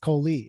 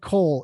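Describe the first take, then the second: First: The surname is said as two syllables. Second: The surname is said as one syllable. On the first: The speaker calls it right. "It's Coley" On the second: The speaker calls it wrong. "I said it wrong"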